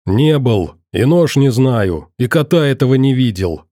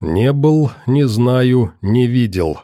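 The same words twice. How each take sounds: First: Hasty, defensive string of denials; lightly acted nervous jabber; mildly gabbled. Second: Each denial set apart; measured, pointed echo; separate, deliberate words. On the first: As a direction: run the denials together. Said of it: "затараторил Одноглазый". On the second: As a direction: repeat it phrase by phrase, distinctly. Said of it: "раздельно повторил Иван Матвеевич". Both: A narrator's reading.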